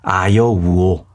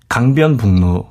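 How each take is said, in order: First: The words are said with only the vowels. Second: The words are said with all consonants pronounced.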